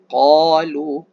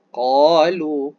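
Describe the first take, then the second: Both takes have the same delivery.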